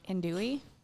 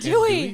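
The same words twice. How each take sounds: First: It is said unsurely, like a question. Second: It is said confidently, with conviction.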